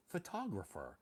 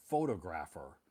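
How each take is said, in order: First: Photographer with stress on the second syllable, pho-TOG-ra-pher; correct pronunciation. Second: Photographer with stress on the first syllable, FO-to-graph-er; mispronounced word. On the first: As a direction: say photographer the right way, fuh-TOG-ruh-fer. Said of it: "didn't pronounce it photographer". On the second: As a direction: say photographer wrongly as FO-to-grapher, in a lightly voiced learner. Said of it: "Todd pronounced it photographer". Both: Shown as a demonstration.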